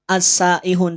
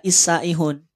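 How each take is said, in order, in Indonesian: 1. Kata ini diawali dengan vokal 'a'. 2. Kata ini diawali dengan vokal 'i'. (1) "maka dibaca a"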